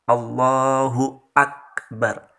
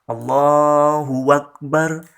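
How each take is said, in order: First: Akbar starts with a glottal stop. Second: Akbar starts with a w sound. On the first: The speaker calls it right. "Akbar bukan wakbar" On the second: The speaker calls it wrong. "diganti menjadi waw"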